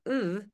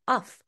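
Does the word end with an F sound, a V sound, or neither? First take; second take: neither; F sound. First: The word is rushed, with no final consonant. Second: The word ends with an F sound. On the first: The speaker calls it right. "it's usually rushed. So it's usually more like ooh" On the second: The speaker calls it wrong. "Most of my students will pronounce it uff"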